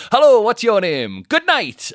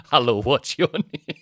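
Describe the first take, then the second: First: Loud, much higher hammed-up bellow; mock shouted host. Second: Slow, louder hammed-up compere greeting; a playful parody of a cheesy host; mock stage host. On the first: Comedian parodying his act with a loud high bellow. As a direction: belt it out like a panto compere. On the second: Comedian mocking his stage persona, slow compere greeting. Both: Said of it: "you know I don't go on and say".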